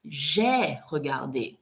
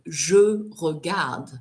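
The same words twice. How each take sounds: First: Slow "j'ai regardé", open "zhay" then final é; distinct "j'ai", sounded é on "regardé"; past-tense pronunciation. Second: Slow "je regarde", final e silent; present-tense pronunciation. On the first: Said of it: "and the past". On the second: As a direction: clear schwa in "je", "regarde" ending on d. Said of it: "the difference between the present". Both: Shown as a demonstration.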